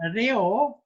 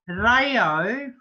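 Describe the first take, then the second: First: The first vowel sounds like 'eh'. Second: The first vowel sounds like 'ah'. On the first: The speaker calls it right. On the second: The speaker calls it wrong.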